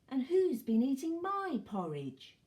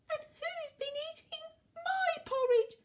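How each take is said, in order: First: It is said in a quieter voice. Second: It is said in a tiny voice.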